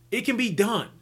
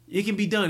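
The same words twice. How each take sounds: First: "can" lifted high and leaned on; insisting "it can" be done; stress on can. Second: "done" landed with a firm fall; settling it with a final "done"; stress on done. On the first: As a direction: push the word "can" up, then let "done" sit. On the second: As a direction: drop down hard on "done" to close it. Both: Real, not acted. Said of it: "repeats the line for emphasis".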